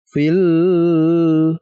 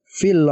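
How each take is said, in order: First: The l is sounded with a nasal hum. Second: The l is sounded plainly and cleanly. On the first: The speaker calls it wrong. "Tidak terus dibaca dengan dengung misalkan fil, jangan" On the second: The speaker calls it right. "tapi dibaca jelas fil uqad"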